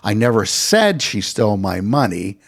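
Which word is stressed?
never. The word "never" is stressed. The speaker denies ever saying it. "I did say she stole my money"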